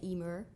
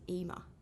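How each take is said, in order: First: The final r sound is clearly pronounced. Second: The final r sound is dropped completely. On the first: This is how Irish or American speakers say it. "in an Irish accent and an American accent, you would say Emer" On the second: This is how someone from Essex says it. "because I'm from Essex, and I don't really say my R's, I say Ema"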